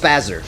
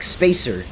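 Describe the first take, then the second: First: The first vowel is short, as in spaz. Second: The first vowel is long, as in space. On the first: The beam makes people spaz out. The speaker calls it wrong. "I read it as Spazzer" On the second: The beam spaces out your shots. The speaker calls it right. "would realize that Spacer Beam, like Spacer, because it spaces out your shots"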